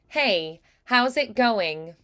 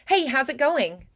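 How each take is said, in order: First: It is said at a moderate pace. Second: It is said very fast.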